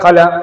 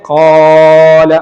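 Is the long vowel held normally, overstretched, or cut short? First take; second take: short; overstretched. First: The vowel is not lengthened at all. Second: The vowel is stretched far beyond two counts. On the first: "നീട്ടാതെ" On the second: "അല്ലാതെ കുറേ ഖാല അങ്ങനെ നീട്ടണ്ട"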